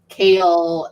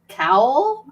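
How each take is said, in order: First: The name rhymes with kale. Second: The name rhymes with cowl. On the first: The speaker calls it right. "I pronounce kale as cowl" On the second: The speaker calls it wrong. "I pronounce kale as cowl"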